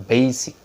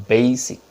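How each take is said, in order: Both takes have the same delivery.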